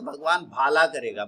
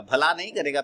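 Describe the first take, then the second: First: भाला said with a long drawn first vowel; punning mispronunciation. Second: Said in the usual way. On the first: Shown as a demonstration. Trading teacher joking with confused students, punning long-vowel भाला. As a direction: stretch the first syllable of भाला, not short भला.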